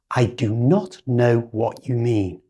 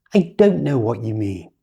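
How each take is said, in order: First: "do not" said as two full words; no contraction. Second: "don't" as one syllable, the o of not gone; native contraction. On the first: Teacher demoing the uncontracted sentence. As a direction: keep "do not" full and separate. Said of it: "First with no contraction". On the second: Teacher modelling how a native speaker says "don't". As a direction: squash "don't" into a single beat. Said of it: "like a native speaker would say". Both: Shown as a demonstration.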